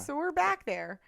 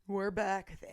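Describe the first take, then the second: First: It is said in a normal voice. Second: It is said in a deeper voice.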